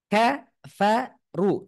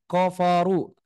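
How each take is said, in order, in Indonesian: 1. Suku kata pertama diucapkan tipis dan ringan. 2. Suku kata pertama diucapkan tebal dan berat. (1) "kafaru juga tipis tuh" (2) "jangan koforu seperti itu, jangan salah"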